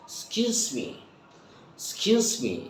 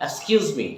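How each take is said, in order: First: "Excuse me" said as "skyooz me", first vowel dropped; native fast-speech reduction. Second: Said in the usual way. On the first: Shown as a demonstration. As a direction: drop the opening of "Excuse me", start softly on the s. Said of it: "in fast speaking like the native". ("Excuse me"-এর শুরুর "এক্স" বাদ দিয়ে "স্কিউজ মি") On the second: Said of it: "Excuse me" বলবো না".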